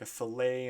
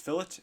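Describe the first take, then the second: First: It is said with a fancy French sound. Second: It is said with a plain English sound. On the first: The speaker calls it wrong. "call these like a fillet ... kind of wacky names" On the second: The speaker calls it right. "the correct pronunciation is fillet ... It's not some some fancy French name"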